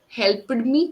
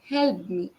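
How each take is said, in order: First: The ending is said as a separate 'ed' syllable. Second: The ending is a short 't' sound, one syllable. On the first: The speaker calls it wrong. "That help ed sound" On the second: The speaker calls it right.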